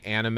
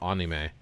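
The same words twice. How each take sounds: First: "anime" opening like "Anna", AN-uh-may; Americanized "anime", AN-uh-may; American pronunciation. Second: "anime" opening on ah, AH-nee-may; Japanese-style "anime", AH-nee-may; Japanese pronunciation. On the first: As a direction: say "anime" with a flat American a as in cat. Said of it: "they'll say anime over". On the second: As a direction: say "anime" with an open ah and nee in the middle. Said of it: "they'll say anime over anime". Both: Shown as a demonstration.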